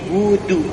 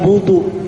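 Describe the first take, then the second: First: The d sound is light and thin. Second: The d sound is heavy and thick. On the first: The speaker calls it right. "tapi budu, tipis ya" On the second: The speaker calls it wrong. "bukan budu"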